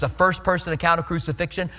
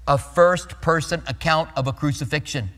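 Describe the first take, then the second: First: The phrase is spoken quickly. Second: The phrase is spoken slowly.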